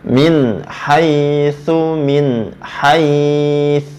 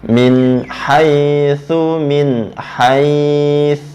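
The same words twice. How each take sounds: The two takes are said the same way.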